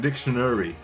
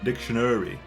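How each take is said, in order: Both takes have the same delivery.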